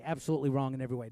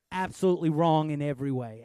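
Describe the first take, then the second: First: Fast, tossed-off restatement; quick repeat. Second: Louder, firm declaration; emphatic. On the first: Fast repeat. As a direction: pastor rattling it off again quickly. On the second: Loud, firm insistence. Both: Real, not acted.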